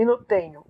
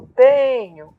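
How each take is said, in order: First: Said in the usual way. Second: "tenho" with TE drawn out and loud; stressed tonic syllable. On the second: Shown as a demonstration. Teacher showing where counting stops, exaggerated stress on TE. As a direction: lean long and hard on the TE of "tenho". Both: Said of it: "então o T".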